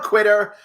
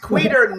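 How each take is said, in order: First: The name sounds like the word 'quitter'. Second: The name does not sound like 'quitter'. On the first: The speaker calls it wrong. "never quitter" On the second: The speaker calls it right. "it's always Queter"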